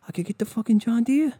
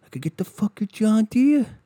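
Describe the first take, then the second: First: High, rising on Deere; dudebro brag, rising. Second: High brag on John Deere; dudebro brag. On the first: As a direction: ask it like a giddy offer. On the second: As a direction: show off the mower like a trophy. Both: Retold or imitated. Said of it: "these fucking people are like".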